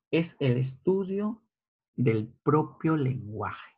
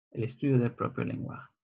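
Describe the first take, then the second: First: "estudio" and "propio" stretched out, each word set apart slowly; slow stressed teaching. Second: Fast and softer, "El estudio del propio lenguaje" run together; quick soft recap. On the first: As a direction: spell out "Es el estudio del propio lenguaje" word by word, leaning on "estudio" and "propio". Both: Shown as a demonstration.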